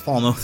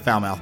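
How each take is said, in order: First: The name is said differently from its spelling. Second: The name is said the way it looks. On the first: The speaker calls it right. "but it's Falmouth" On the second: The speaker calls it wrong. "It looks like Falmouth"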